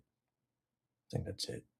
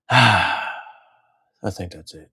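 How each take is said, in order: First: Slow breathy whisper. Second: Sigh, then very slow and drawn out; slow sighing sign-off. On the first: Wrapping up the video, whispered softly to himself. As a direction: whisper it, trailing off. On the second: Wrapping up the video, slow and sighing. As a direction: let it drag out on a sigh. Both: Real, not acted.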